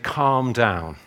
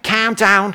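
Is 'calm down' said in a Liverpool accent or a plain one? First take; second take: plain; Liverpool. First: It is said in a plain, neutral accent. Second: It is said in a Liverpool accent. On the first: "But they don't say it like that" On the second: "They go, hey, calm down"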